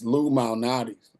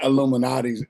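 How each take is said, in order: First: The name starts with a separate 'Lou Mal'. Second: The name is run together like 'Illuminati's'. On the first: The speaker calls it right. "It's Lou Malnati's" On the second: The speaker calls it wrong. "It's not Illuminati's"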